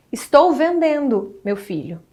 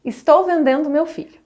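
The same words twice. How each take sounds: First: "Estou vendendo, meu filho" with a pause before "meu filho"; slow "Estou vendendo", then pause, then address "meu filho"; "meu filho" set off by a comma pause as a form of address; vocative comma pause. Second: Said in the usual way. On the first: Shown as a demonstration. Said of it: "meu filho", entre vírgulas, marca um vocativo". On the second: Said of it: "forma como a pontuação atua".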